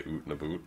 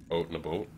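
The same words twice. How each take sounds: First: "oot and a boot" with a long oo in out and about; Canadian vowel. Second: "oat and a boat" with a long oh in out and about; Canadian vowel. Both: Retold or imitated. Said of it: "but you do say".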